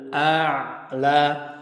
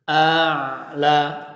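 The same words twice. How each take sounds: Both takes have the same delivery.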